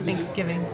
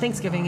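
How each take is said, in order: First: A small pause falls between Thanks and giving. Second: The word is said smoothly without a pause. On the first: "it's two words. You put a little pause" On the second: "It's not Thanksgiving"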